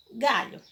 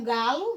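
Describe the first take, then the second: First: "Galho" with a palatal LH, like ly; LH sound. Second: "galo" with a plain L sound. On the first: Teacher answers what galo becomes, LH sound. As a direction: say "Galho" with the L softened to LH. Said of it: "vai ficar o quê?". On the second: Teacher shows the word before adding H, plain L. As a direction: say "galo" with a simple L. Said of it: "você vai acrescentar o H depois da letrinha". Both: Shown as a demonstration.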